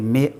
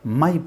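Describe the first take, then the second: First: The vowel sounds like 'may', an 'ay' sound. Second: The vowel sounds like 'my', an 'ai' sound. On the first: The speaker calls it right. "इसको कहेंगे" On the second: The speaker calls it wrong. "माई पढ़ देते हैं, जो गलत उच्चारण"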